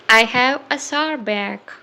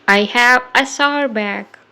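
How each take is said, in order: Both takes have the same delivery.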